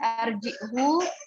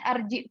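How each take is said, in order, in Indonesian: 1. Huruf u terakhir setelah h dibaca panjang. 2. Huruf u terakhir setelah h dibaca pendek. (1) "nggak ditambahkan silah di situ, nggak ada huruf matnya, jadi nggak arjihu" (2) "tapi hanya arjihu saja"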